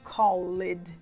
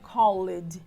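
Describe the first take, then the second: Both takes have the same delivery.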